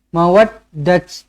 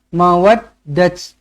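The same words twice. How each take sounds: First: The word ends with a t sound. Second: The word ends with a t sound.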